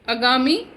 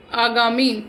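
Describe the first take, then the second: First: आगामी with a short first vowel, əgami, rising; wrong pronunciation. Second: आगामी with a long open first a, aagami, falling; correct pronunciation. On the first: Teacher shows pupils the wrong short-vowel form. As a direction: clip the opening of आगामी short. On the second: Teacher gives pupils the correct long-vowel form. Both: Shown as a demonstration. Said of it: "wrong then right pairs".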